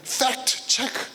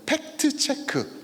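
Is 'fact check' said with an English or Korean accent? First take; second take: English; Korean. First: It is said with English-style sounds and rhythm. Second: It is said with Korean-style syllables and vowels. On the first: "fact check 발음 좋죠?" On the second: "한국말 같아요"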